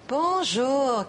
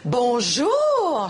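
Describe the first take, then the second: First: The greeting sounds scornful and contemptuous. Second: The greeting sounds surprised. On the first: The speaker thinks the listener is a fool. "quel imbécile" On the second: The speaker did not expect to see the listener. "je suis surprise de te voir"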